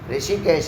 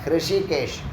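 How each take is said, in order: First: The word begins with a plain r sound. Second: The word begins with an h before the r. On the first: The speaker calls it wrong. "ரிஷிகேஷ் இல்லை" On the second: The speaker calls it right.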